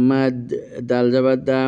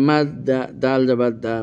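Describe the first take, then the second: The two takes are said the same way.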